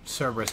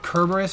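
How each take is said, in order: First: It uses the usual Western English pronunciation. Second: It uses the original Greek-style pronunciation. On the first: This is the form English speakers use. "because of, you know, Western tongue, it's Cerberus to us" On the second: This is the technically correct form. "the technical correct way to pronounce"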